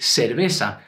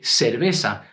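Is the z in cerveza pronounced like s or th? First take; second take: s; s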